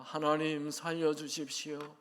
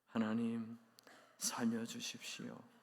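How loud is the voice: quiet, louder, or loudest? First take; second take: loudest; quiet. First: It is said in the loudest voice yet. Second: It is said in a tiny, quiet voice. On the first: "조금 더 큰 소리로" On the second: "목이만한 소리로"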